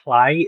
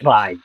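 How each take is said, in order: First: The word begins with a hard 'kl' sound. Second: The word begins with a breathy, hissing 'l' sound. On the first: The speaker calls it wrong. "it's not a C L, it's not a Cly" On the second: The speaker calls it right.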